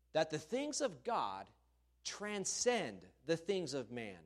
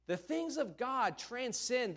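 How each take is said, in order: First: Said in the usual way. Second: "The things of God transcend" slower, much higher, each word leaned on; emphatic slow restatement. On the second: Shown as a demonstration. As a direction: drive home "transcend" slowly from up high. Preacher restates point emphatically.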